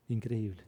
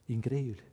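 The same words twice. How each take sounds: The two takes are said the same way.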